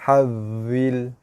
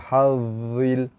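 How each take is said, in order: Both takes have the same delivery.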